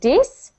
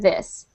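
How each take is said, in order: First: The word begins with a d sound. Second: The word begins with a th sound. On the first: The speaker calls it wrong. "you say them like a D, like dis" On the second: The speaker calls it right. "instead of this"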